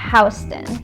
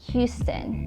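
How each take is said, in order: First: It is pronounced like the New York street name. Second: It is pronounced like the Texas city name. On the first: The speaker calls it right. "you say Houston" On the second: The speaker calls it wrong. "here in New York, you don't say Houston"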